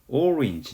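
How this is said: It is pronounced like the English word. This is the word's original pronunciation. "원래 발음은 어떻게 돼요? 오렌지 이렇게 되죠"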